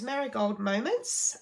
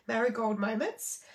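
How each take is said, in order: First: Slow and deliberate, each syllable of "Marigold Moments" placed; careful slow retry. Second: A small laugh over a tongue-twisting name; laughing at a stumble. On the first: Retrying the tricky product name for viewers, slowly and carefully. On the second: Stumbling over product names while reading the catalogue, with a laugh. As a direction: chuckle through "Marigold Moments" after tripping on it. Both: Real, not acted. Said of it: "I get very tongue-tied with all these names".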